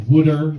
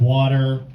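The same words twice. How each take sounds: First: Philly wooder. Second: Said in the usual way. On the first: Shown as a demonstration. Fiance's Philly accent, saying "wooder". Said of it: "she always says". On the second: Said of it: "instead of".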